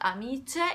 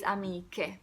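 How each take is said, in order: First: The consonant before the end is a soft 'ch'. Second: The consonant before the end is a hard 'k'. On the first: The speaker calls it wrong. "So it's not amice" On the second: The speaker calls it right. "the pronunciation is strong"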